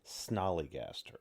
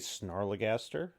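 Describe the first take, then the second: First: The name begins with the sound 'snol'. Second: The name begins with the sound 'snar'. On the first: The speaker calls it right. "it is technically" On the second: The speaker calls it wrong. "we were pronouncing the creature's name wrong"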